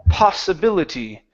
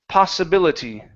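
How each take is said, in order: Both takes have the same delivery.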